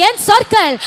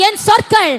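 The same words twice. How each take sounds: The two takes are said the same way.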